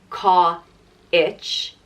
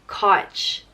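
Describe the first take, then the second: First: The vowel has a full, clear 'i' glide. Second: The vowel has only a slight 'i' glide. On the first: The speaker calls it wrong. "It's not Ka-ich" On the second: The speaker calls it right. "a very subtle I sound"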